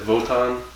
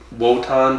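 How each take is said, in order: First: The name begins with a V sound. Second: The name begins with a W sound. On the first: "they pronounced it like a V" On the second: "it was a W"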